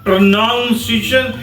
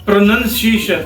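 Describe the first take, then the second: First: The second syllable sounds like 'noun'. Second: The second syllable sounds like 'nun'. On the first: The speaker calls it wrong. "Usually people speak it noun" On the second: The speaker calls it right. "That is प्रोनाउंसिएशन"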